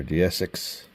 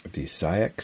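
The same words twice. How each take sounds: First: "Deesix" said as dee-ess-six; unsure pronunciation. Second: "Deesix" said as dee-SIGH-ex; alternative pronunciation. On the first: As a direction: try "Deesix" with a short "six" ending. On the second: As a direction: try "Deesix" with a long "sigh" in it. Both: Shown as a demonstration. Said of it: "Is that how you say it?".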